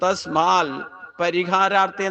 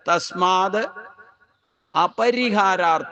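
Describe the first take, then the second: First: The vowel before 'parihara' is left out. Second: The vowel before 'parihara' is clearly pronounced. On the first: The speaker calls it wrong. "അതുകൊണ്ട് തസ്മാൽ പരിഹാരാർത്ഥി എന്നാ വായിക്കുക. പക്ഷെ അങ്ങനെയല്ല വായിക്കണ്ടേ" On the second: The speaker calls it right. "തസ്മാത് അപരിഹാരാർത്ഥ എന്നാണ് ശബ്ദം"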